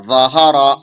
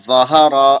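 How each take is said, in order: No difference in how they are said.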